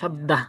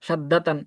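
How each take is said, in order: First: The word ends in a short 'ah' sound. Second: The word ends with a full 'tan' sound. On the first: The reader stops and takes a breath after this word. "যদি এখানে দম ছাড়ি, মানে নিঃশ্বাস ত্যাগ করি শেষে, এটা শেষ শব্দ বানাই, তাহলে পড়বো কি সাদ্দা" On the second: The reader does not stop after this word. "তখন আমরা এইভাবে সাদ্দাতান এইভাবেই পড়বো"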